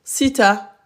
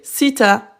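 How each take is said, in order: Both takes have the same delivery.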